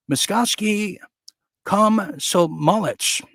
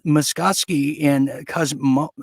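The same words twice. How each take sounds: First: Muskovsky Komsomolets said high and very slow, syllable by syllable; corrected name. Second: Muskovsky said slowly, feeling out each syllable; careful name try. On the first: Host carefully getting the paper's name right. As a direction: carefully spell out the name in speech. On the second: Newsreader slowly trying out Muskovsky. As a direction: sound out the Russian paper name. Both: Shown as a demonstration.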